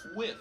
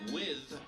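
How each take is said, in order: First: It is said in Ebonics pronunciation. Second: It is said in standard English pronunciation.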